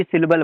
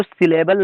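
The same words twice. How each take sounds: First: "सिलेबल" squeezed to SIL-bal; IPA pronunciation. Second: "सिलेबल" with a full middle vowel, si-LE-bal; common pronunciation. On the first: Teacher showing learners the IPA form, "सिलेबल" as sil-bal. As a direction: drop the middle vowel in "सिलेबल". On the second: Teacher showing the form IPA rejects, "सिलेबल" as si-le-bal. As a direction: say all three vowels in "सिलेबल". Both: Shown as a demonstration. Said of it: "बल्कि सिलेबल बोला जाता है".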